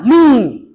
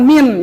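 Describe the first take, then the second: First: The n is held with a nasal hum. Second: The n is clipped short without a nasal hum. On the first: The speaker calls it right. "Ikhfa itu harus dibaca deng dengung" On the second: The speaker calls it wrong. "jangan min ya"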